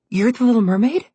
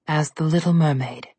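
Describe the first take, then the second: First: "Little Mermaid" asked high and rising, thrilled; enthralled. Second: Said in the usual way. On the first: A narrator's reading. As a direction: gasp out the name in delight. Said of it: "completely enthralled".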